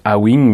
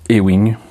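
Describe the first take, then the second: First: The letter A is said like French 'ah'. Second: The letter A is said like English 'ay'. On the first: The speaker calls it wrong. "En français, on le lirait A-Wing" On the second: The speaker calls it right. "mais ça se prononce Ewing"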